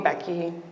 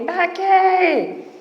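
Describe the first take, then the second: First: The name is said in a normal voice. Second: The name is said in a squeaky high voice. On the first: "People didn't call me Becky" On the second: "They called me Becky"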